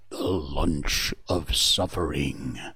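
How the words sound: It is said in a big, dramatic voice.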